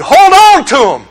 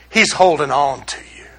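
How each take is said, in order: First: High, insistent command; emphatic demand. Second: Low, soft comfort; gentle reassurance. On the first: Religion telling believers what to do, high and insistent. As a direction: press it on them, pitched up. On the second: Gospel reassuring believers they are held, low and soft. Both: Acted.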